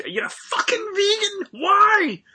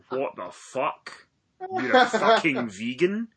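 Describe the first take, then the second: First: High, loud, hammed-up outraged shout; mock fit. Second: Slow, stunned disbelief rising at the end. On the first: Yelling at his friend for going vegan, hammed-up outraged shout. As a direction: throw a mock tantrum at the word vegan. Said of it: "So I had a bit of a, a fit". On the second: Retold or imitated. Retelling his reaction to a friend turning vegan, stunned disbelief. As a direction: drag it out, can't believe it.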